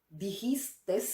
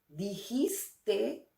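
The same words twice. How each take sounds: First: The word ends with an extra s sound. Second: The word ends without an extra s sound. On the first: The speaker calls it wrong. "con una S al final" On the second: The speaker calls it right. "sin la S final"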